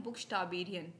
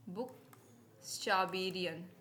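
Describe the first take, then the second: First: Said in the usual way. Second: बुकस्टाबेरियन drawn out slowly, each syllable clear; slow careful pronunciation. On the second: Shown as a demonstration. Teacher repeating the German word for her students, slow and careful. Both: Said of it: "German में क्या बोलते हैं".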